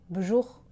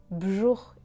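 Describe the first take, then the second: No difference in how they are said.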